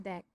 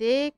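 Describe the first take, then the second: First: দেখ with an open e, like "dækh"; দেখ said "dækh", as spoken in contempt; correct open e. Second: দেখ with a closed e, like "dekh"; দেখ as "dekh", the spelling-based reading; wrong way. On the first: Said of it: "আমরা বলছি দেখ". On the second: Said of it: "আমরা কিন্তু দেখ বলছি না". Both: Shown as a demonstration.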